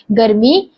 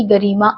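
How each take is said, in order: First: गर्मी said correctly as the fix; a corrected गर्मी right after "sorry"; corrected word. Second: गरिमा said by mistake for गर्मी; a quick misspoken गरिमा before the correction; slip of the tongue. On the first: (सुधारकर सही गर्मी बोलना) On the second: (ग़लती से गरिमा बोलना) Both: Real, not acted. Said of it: "sorry, गर्मी".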